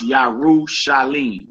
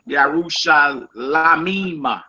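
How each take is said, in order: First: The word ends with a short 'lim' syllable. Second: The word ends with an extra 'lamim' syllable. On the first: The speaker calls it right. "you're gonna see it's pronounced Yarushalim" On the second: The speaker calls it wrong. "You say Yarushal, Yarushalamima. Lamim, but it ain't pronounced like that"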